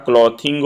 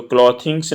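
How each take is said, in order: First: क्लॉथिंग said with no final s; क्लॉथिंग ending on the ng sound; giving क्लॉथिंग as the right answer; correct form without s. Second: क्लॉथिंग्स said with a final s; क्लॉथिंग्स ending in ngs; marking क्लॉथिंग्स as the wrong form; wrong plural form. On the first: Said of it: "क्लॉथिंग होता है". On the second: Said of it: "क्लॉथिंग्स नहीं होता". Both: Shown as a demonstration.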